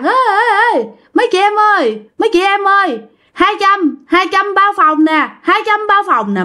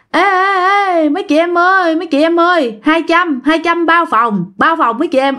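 First: Very high, loud sing-song hawking; loud hustler call. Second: High, sing-song call to the ladies; sleazy hustler call. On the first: Friend hollering room deals on the empty hill, brash loud hustler call. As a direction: holler rooms for sale like a brash pimp. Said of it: "Mà nó la, tao nói um sùm luôn". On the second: Friend calling out to girls on the slope, sleazy hustler call. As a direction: hawk rooms like a cheeky pimp. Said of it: "theo kiểu đĩ đực á". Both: Retold or imitated.

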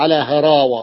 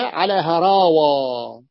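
First: Said in the usual way. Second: "على هراوة" very slow, long vowels held; drawn-out plural. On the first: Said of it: "تجمع على هراوة". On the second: Shown as a demonstration. Teacher answering how it is pluralised, drawn out. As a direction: stretch "هراوة" right through to its last vowel. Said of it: "تجمع على ماذا؟".

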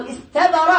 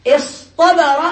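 First: استبر with a plain t; light tāʾ. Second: اصطبر split, with a heavy ṭ; emphatic ṭāʾ. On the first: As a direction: say استبر with an unemphatic ت. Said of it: "استبر بالتاء". (نطق استبر بتاء مرققة) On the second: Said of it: "أبدلوا بدل التاء". (نطق اصطبر بطاء مفخّمة) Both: Shown as a demonstration.

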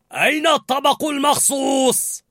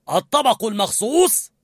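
First: High, shouted question; loud demand. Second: High, impatient demand; angry. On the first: Sous-chef to two cooks, loud demand. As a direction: bellow for the dish. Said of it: "سألهما هورست بصوت عال". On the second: Sous-chef out of patience, angry question. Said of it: "وسأل بغضب". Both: A narrator's reading.

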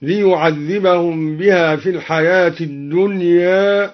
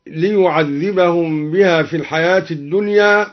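First: "الدنيا" ending slightly tilted toward e; slow recitation, final a of "الدنيا" half-raised toward e; taqlil of final alif. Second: Said in the usual way. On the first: Shown as a demonstration. (تقليل ألف "الدنيا" بين الفتح والإمالة) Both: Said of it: "قلل الدوري لفظ الدنيا هكذا".

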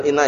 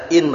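First: "inna" with doubled n and final a; "inna" with two n sounds; form with tashdid. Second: "in" with one n, no vowel after; "in" short and lightened; form without tashdid. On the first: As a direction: say "inna" in its full heavy form. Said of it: "Bukan inna ya". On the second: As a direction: cut "in" off at the single n. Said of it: "in bacanya gitu". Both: Shown as a demonstration.

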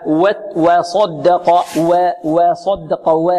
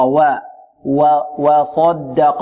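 First: و of وصدق tilted toward "we"; over-thinned waw. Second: وَ in وصدق a clear open "wa", not "we"; plain light waw. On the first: Teacher demonstrates the exaggeration to avoid, over-thinned waw. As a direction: overdo the lightness of وصدق's first vowel, slowly. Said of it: "المبالغة في ترقيقها". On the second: Teacher corrects the over-thinned mistake, plain light waw. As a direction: say وصدق slowly with an untilted light wa. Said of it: "لا، خطأ". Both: Shown as a demonstration.

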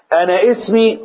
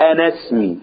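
First: اسمي said with a hard glottal stop; اسمي, stopped glottal onset; wrong hamza. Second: اسمي joined to أنا, no stop; اسمي flowing, no glottal stop; linked hamza. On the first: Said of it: "غلط". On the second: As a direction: glide into اسمي, anesmi. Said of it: "اوعى تنطقها بهمزة القطع". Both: Shown as a demonstration.

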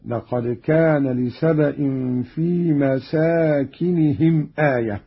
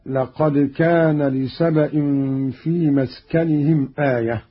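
First: مساكنهم with long aa after seen; Qalun's plural reading. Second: مسكنهم with a vowelless seen; singular reading. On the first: Teacher shows Qalun's reading, مساكنهم as masaakinihim. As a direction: say مساكنهم as masaakinihim, kasra on kaf. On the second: Teacher quotes the verse before the variant, مسكنهم as maskanihim. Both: Shown as a demonstration. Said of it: "بفتح السين وألف بعدها".

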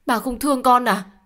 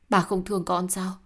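First: Higher, louder pleading cry; anguished plea. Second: Said in the usual way. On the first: Acted. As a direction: beg him, voice rising high. Daughter pleads louder with father.

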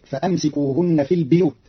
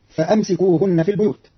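First: البيوت as "al-biyut", i after the b; Qalun's "biyut" for البيوت; kasra on ba. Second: Said in the usual way. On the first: Shown as a demonstration. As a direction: say البيوت with "bi-", not "bu-". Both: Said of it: "بكسر الباء".

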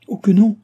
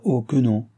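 First: Loud, high, emphatic contradiction; assured refusal. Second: Said in the usual way. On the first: A narrator's reading. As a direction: cut in with a confident, high-pitched no. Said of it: "avec la même assurance". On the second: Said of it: "dit le roi".

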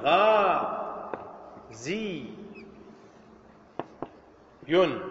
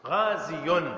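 First: "غا زي ين" split into ghaa, zii, yun, with long pauses; syllable-by-syllable original form. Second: "غازي" as one word ending in audible -yun; original form, joined. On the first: Teacher showing students the original form, "غا زي ين" slowly syllable by syllable. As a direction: say "غا زي ين" as three separate drawn-out syllables. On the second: Teacher showing students the original form, "غازي" joined as ghaaziyun. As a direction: join "غازي" up as ghaaziyun, sounding the final n. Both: Shown as a demonstration. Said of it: "لاحظ أصله ماذا؟".

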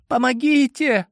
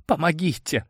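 First: Woman's cry for help. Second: Trembling whisper. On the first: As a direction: call for help in a high woman's voice. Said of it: "вновь раздался женский голос". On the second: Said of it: "прошептала дрожащим голосом девушка". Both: A narrator's reading.

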